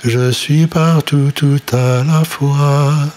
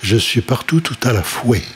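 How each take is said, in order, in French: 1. Le dernier mot se prononce comme fwa. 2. Le dernier mot se prononce comme fweh.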